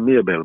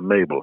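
First: The name is said in the local pronunciation. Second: The name is said in the English pronunciation. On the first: This is how her own community says the name. "We call her Mabel" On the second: This is how people in England say the name. "in England it's a Mabel"

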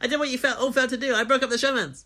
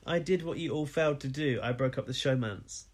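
First: It is spoken at a faster pace. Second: It is spoken at a slower, normal pace.

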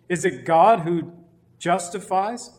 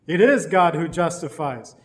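First: It is said as a rising question. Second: It is said as a falling statement.

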